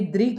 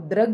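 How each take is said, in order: First: The first syllable is said as 'dri'. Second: The first syllable is said as 'dra'. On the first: The speaker calls it right. "री का इसे उच्चारण करेंगे" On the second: The speaker calls it wrong. "आपको द्रग नहीं करना है, तो ये गलत है"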